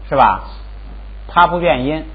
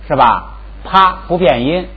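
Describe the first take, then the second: The two takes are said the same way.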